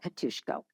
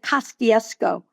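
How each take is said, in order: First: The name is pronounced the Polish way. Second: The name is pronounced phonetically as spelled. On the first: This is the name's real pronunciation. "I didn't call it Katuszko" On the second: This is how locals said it as children. "we would pronounce it phonetically"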